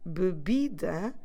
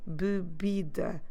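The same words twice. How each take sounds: The two takes are said the same way.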